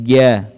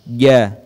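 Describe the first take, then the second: Both takes have the same delivery.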